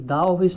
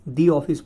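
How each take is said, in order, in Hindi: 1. 'The' को छोटी 'thuh' ध्वनि से बोला जाता है। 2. 'The' को लंबी 'thee' ध्वनि से बोला जाता है। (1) "द ऑफिस नहीं बोलेंगे" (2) "दी ऑफिस बोलेंगे"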